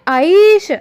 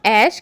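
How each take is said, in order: First: The first vowel glides from 'a' to 'ee'. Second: The first vowel is a plain, unglided vowel. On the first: The speaker calls it right. "वह वास्तव में है आईश, क्योंकि यह आई स्वर" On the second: The speaker calls it wrong. "जिसे हम ऐश कहते हैं"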